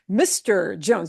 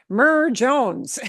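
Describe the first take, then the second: First: The title is two full syllables, 'mister'. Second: The title is one short syllable, 'mer'. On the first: The speaker calls it right. "You have to say the whole word" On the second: The speaker calls it wrong. "you don't say Mer"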